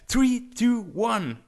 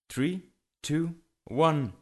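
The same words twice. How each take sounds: First: The count is said fast. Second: The count is said slowly.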